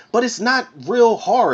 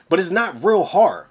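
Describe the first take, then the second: First: Real hit higher and harder; stress on real. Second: Said in the usual way. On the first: Real, not acted. Reviewer repeats the verdict to viewers, stress on real. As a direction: lean into real to drive the point home.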